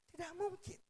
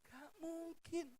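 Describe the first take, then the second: First: It is said cheerfully, with a smile. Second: It is said in a slightly sad way.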